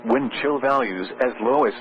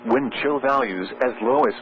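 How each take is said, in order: Both takes have the same delivery.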